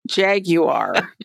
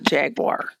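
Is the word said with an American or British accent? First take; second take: British; American. First: It is said the British way. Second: It is said the American way.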